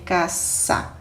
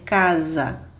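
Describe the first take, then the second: First: The middle consonant is a hissing 's'. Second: The middle consonant is a buzzing 'z'. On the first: The speaker calls it right. "vamos dizer caça" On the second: The speaker calls it wrong. "não existe o som do Z, não vamos dizer casa"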